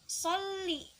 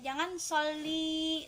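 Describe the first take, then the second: First: The final vowel is kept short. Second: The final vowel is drawn out long. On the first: The speaker calls it right. "li-nya dibaca pendek aja" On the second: The speaker calls it wrong. "jangan ... itu kepanjangan"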